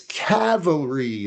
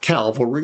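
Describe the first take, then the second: First: The word starts with the sounds 'cav'. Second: The word starts with the sounds 'cal'. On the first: The speaker calls it right. "it's cavalry, like a cavalier" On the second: The speaker calls it wrong. "It's not cavalry"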